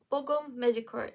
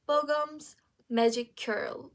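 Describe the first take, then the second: First: "Bogum Magic Curl" run together quickly; quick, joined-up "Bogum Magic Curl"; said fast. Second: Slow and louder, each word set apart; "Bogum's magic curl" spaced out clearly; separated words. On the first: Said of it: "If you say it fast enough". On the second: First meaning, words set apart. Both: Shown as a demonstration.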